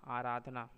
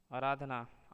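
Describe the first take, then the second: First: Said in the usual way. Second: आराधना with a short first a; wrong pronunciation. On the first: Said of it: "शुद्ध शब्द". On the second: Shown as a demonstration. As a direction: say आराधना as "araadhana". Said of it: "अशुद्ध शब्द".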